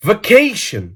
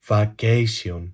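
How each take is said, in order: First: VACATION higher, in a fluent English accent; authentic English accent. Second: Put-on VACATION low and soft in a Greek accent; mock Greek accent. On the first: Shown as a demonstration. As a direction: say "Vacation" like a native English speaker. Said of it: "μιλάω με αυτή την προφορά". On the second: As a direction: pronounce "Vacation" with Greek vowels and s. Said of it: "με ελληνική προφορά".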